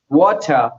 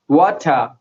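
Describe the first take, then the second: First: The final r is dropped, non-rhotic. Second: The final r is dropped, non-rhotic.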